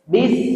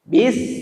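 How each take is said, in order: First: The syllable is light and thin. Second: The syllable is light and thin.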